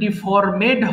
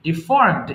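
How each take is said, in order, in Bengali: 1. -ed অংশটি একটি বাড়তি সিলেবল। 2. -ed অংশটি শেষ সিলেবলের সাথে মিশে যায়। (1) "এটা কিন্তু ডিফর্মেড হবে না" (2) "ভালো করে উচ্চারণ শুনবা কিন্তু"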